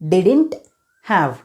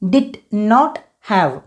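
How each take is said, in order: First: Did and not are merged into one short word. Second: Did and not are said as two full words.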